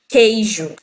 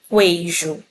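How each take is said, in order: First: No W sound follows the K sound. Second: A W sound follows the K sound. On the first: The speaker calls it right. "eu falo queijo" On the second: The speaker calls it wrong. "Também não falo queijo"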